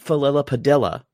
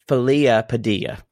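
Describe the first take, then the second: First: The name is pronounced in an anglicized way. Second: The name is pronounced in a Spanish way. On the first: This is how others mispronounced the name. The speaker calls it wrong. "no, it's not Falilla Padilla" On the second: This is how the name's owner says it. The speaker calls it right. "she pronounces it more authentic"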